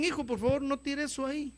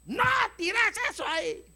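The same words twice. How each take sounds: First: Petición paterna suave, algo más aguda; padre pidiendo. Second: Grito agudo de padre que perdió la paciencia. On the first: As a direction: pide con paciencia, sin alzar la voz. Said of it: "cuando los padres le hablan a los hijos". (petición amable de padre) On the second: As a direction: grita la orden, muy aguda, actuando el hartazgo. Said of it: "Cuando mi esposa me oye gritar". (grito paterno exasperado) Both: Acted.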